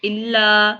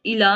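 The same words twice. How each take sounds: First: इल्ला with a held double l; doubled lam. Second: इला with a short single l; wrong single lam. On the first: Teacher showing the right इल्ला with shadda. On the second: Teacher quoting the wrong इला without shadda. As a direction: say इला quickly, with no doubling on ल. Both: Shown as a demonstration. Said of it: "इला नहीं पढ़ना इसको".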